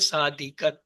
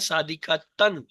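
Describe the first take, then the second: First: The word ends with a soft -ah ending. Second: The word ends with a full -tan ending. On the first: "रुकने की वजह से ता को हा में कहेंगे" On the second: "ये लफ्ज तो है सादिका तन"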